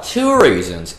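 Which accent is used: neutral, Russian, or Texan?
Texan. It is said in an attempted Texan accent. "because he was Texan"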